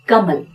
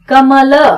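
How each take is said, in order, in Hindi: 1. अंतिम ल बिना स्वर के छोटा करके बोला जाता है। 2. अंतिम ल स्वर के साथ पूरा बोला जाता है। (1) "हम बोलते हैं कमल। ल पूरा सुनाई नहीं देगा" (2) "बजाय ऐसे बोलने के"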